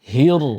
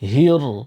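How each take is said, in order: First: The r sound is heavy and full. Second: The same.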